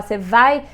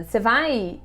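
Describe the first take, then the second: First: "Você vai?" with the tune rising on "vai", so it is unclear whether it is a question; ambiguous question tune. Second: "Você vai?" asked as a question, voice falling on "vai"; question tune. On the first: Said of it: "sem a entonação certa". ("Você vai?" subindo em "vai", sem a entonação certa de pergunta) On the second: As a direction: ask "Você vai?" clearly as a question, ending down on "vai". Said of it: "Se fala". (pergunta "Você vai?" com a entonação caindo em "vai") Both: Shown as a demonstration.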